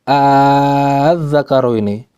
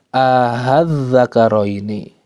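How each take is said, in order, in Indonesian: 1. Awalannya adalah vokal panjang yang dipanjangkan. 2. Awalannya diperlunak, di antara hamzah dan vokal. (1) "Kalau saya membaca dengan uh, apa namanya? Alif" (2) "Pertengahan di antara keduanya bukan hamzah bukan alif"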